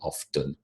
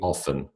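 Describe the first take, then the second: First: The t sound is pronounced. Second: The t sound is silent. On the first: The speaker calls it wrong. "they do pronounce the, the letter that is there, the t" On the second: The speaker calls it right. "It should be often"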